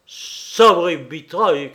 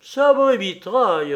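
First: Loud, drawn-out angry oath; furious shout. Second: Loud, high defiant yell; bold shout. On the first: King raging at insolent Pierrot, furious shout. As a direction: shout it slowly in a rage. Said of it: "cria-t-il". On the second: Pierrot boldly outshouting the king, defiant yell. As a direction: yell the oath back, outdoing him. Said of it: "en criant plus fort que le roi". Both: A narrator's reading.

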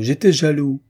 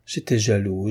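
First: "j'étais jaloux" repeated higher and louder, bursting out; the second "j'étais jaloux" blurted with feeling; louder repetition. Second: Said in the usual way. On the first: A narrator's reading. Lover confessing to the woman, "j'étais jaloux" louder and higher. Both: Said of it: "Il répétait".

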